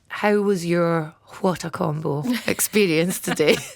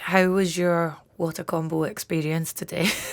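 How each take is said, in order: First: It is said in a clear, put-on phone voice. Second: It is said casually, without careful articulation. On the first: "I'm gonna tr- use my phone voice" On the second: "I just don't make any effort to like speak clearly"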